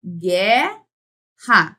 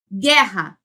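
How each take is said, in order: First: GUERRA loud and split, gueee, then rra; syllable by syllable. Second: Said in the usual way. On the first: Shown as a demonstration. Teacher breaking a word into sounds, syllables drawn apart. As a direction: stretch GUE, pause, then RRA in Guerra. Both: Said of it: "Eu tenho aqui".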